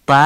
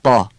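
First: ط as a light, fronted "tæ"; wrong thin vowel. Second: طا as a heavy, short "tɑ"; short dark fatha. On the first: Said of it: "درست نیست". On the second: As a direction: say طا full and backed but brief. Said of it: "فتحش هم باید آی کوتاه بگید". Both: Shown as a demonstration.

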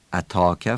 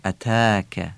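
First: اتاکه with a dark, back "aw" vowel; Persian-style alef. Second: اتاکه with a thin, stretched front "aa"; light long alef. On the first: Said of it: "اتاکه فارسیه". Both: Shown as a demonstration.

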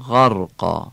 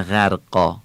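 First: غرقا with a short a on the غ; short fatha. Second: غرقا with a drawn-out first vowel, the wrong way; wrong long vowel. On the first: Teacher giving the correct Quranic reading. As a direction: keep the vowel after غ in غرقا brief. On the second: Teacher showing students the mistake to avoid. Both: Shown as a demonstration.

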